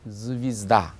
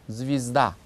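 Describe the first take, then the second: Both takes have the same delivery.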